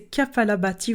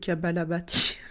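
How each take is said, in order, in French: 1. Le mot commence par les syllabes ka-pa. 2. Le mot commence par les syllabes ka-ba. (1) "Donc c'est Kapalabhati" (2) "ou Kabalabhati"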